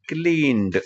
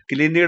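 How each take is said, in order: First: The ending is swallowed, giving one syllable. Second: The ending is pronounced separately, giving two syllables. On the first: The speaker calls it right. "तोंडातल्या तोंडात क्लीन्ड असं म्हणायचं" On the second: The speaker calls it wrong. "क्लिनिड असं म्हणायचं नाही"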